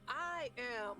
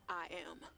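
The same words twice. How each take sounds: First: It sounds confident and convinced. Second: It sounds hesitant and unconvinced.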